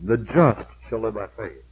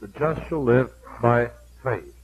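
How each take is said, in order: First: The word "just" is stressed. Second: The word "faith" is stressed.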